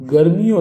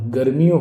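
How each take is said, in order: First: गर्मियों with long "mee"; high गर्मियों as "gar-mee-yon"; wrong pronunciation shown. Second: गर्मियों with short "mi"; quick middle i in गर्मियों; correct pronunciation shown. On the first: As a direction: stretch the middle i of गर्मियों. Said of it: "गर्मियों नहीं". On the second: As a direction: say गर्मियों as "gar-mi-yon". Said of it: "छोटी की बात लगेगी". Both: Shown as a demonstration.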